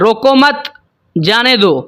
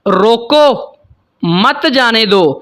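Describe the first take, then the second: First: The pause comes after mat. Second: The pause comes after roko.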